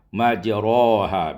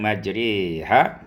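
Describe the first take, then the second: First: The vowel after r is a plain open a. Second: The vowel after r is tilted toward e. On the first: This is another transmitted reading of the verse. "fathah tanpa ada imalah" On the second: This is one transmitted reading of the verse. "dimalahkan majriha"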